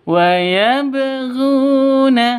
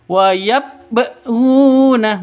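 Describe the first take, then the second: First: Yabghuna with the b bounced out; right bouncing qalqalah. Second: Yabghuna with the b swallowed, no bounce; wrong flat b. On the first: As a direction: give the b of yabghuna a clear rebound. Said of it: "Nah, seperti itu ya". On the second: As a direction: say yabghuna without an echo on the b. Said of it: "Bukan seperti itu". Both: Shown as a demonstration.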